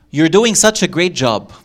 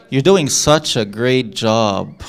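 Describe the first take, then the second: First: Encouraging. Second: Slow, dry mock praise; sarcastic. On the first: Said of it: "Exercise. Guess the meaning". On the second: Teacher turning praise into slow sarcasm. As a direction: drag out the praise so it means the opposite. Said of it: "Could that be done in a sarcastic way?". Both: Shown as a demonstration.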